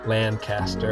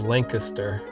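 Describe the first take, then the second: First: It is pronounced the West Coast way. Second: It is pronounced the East Coast way. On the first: "but over here they call it Lancaster" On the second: "on the East Coast they call it is Lancaster"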